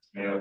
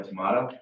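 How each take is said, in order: First: "tomato" as tuh-MAY-toh; alternative pronunciation. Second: "tomato" as tuh-MAH-toh; alternative pronunciation. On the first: Staffer jokes about either pronunciation, "tomato" said tuh-MAY-toh. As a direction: say "tomato" with a long AY in the middle. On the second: Staffer jokes about either pronunciation, "tomato" said tuh-MAH-toh. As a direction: say "tomato" with an open AH in the middle. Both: Shown as a demonstration. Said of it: "however you want to say it".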